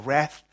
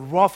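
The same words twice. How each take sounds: First: The word is said with a North American pronunciation. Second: The word is said without a North American pronunciation.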